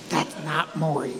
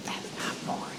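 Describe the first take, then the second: First: Low, slow, hushed undertone; quiet, low-pitched confidential aside; discreet murmur. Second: Hushed, voiceless whisper; barely audible funeral whisper; discreet whisper. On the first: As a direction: murmur it under your breath, slowly. Secretly telling Barry at funeral. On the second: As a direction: whisper it secretly into a friend's ear. Secretly whispering to Barry at funeral. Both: Retold or imitated.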